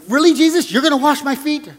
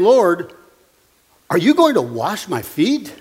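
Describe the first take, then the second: First: Incredulous objection. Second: Said in the usual way. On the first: Retold or imitated. Preacher voicing Peter objecting to Jesus washing his feet, incredulous. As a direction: protest it, not ask it. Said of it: "He was asking it as an objection". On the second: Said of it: "He didn't ask it like it was a question".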